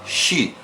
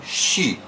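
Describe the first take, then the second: Both takes have the same delivery.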